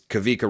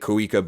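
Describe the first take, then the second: First: The middle consonant is a V sound. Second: The middle consonant is a W sound. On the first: The speaker calls it right. "but it's Kavika" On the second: The speaker calls it wrong. "I was saying it Kawika"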